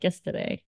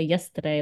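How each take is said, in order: First: It is said in an imitated Boston accent. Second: It is said in the speaker's own accent.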